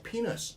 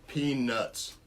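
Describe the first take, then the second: First: The t sound is dropped, sounding like penis. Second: The t sound is clearly pronounced. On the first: The speaker calls it wrong. "because you're like, oh" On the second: The speaker calls it right. "That's why I pronounced it correctly"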